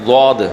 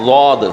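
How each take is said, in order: The two takes are said the same way.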